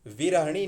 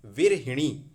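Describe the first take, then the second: First: विरहिणी as vi-ra-ha-nee; wrong ha syllable. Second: विरहिणी as vir-hi-nee, louder; correct hi syllable. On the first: Teacher rejecting a form, विरहिणी as vi-rah-nee. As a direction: say विरहिणी without i after h. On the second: Teacher correcting students, विरहिणी with clear hi. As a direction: punch hi in विरहिणी. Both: Shown as a demonstration. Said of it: "विरहिणी नहीं".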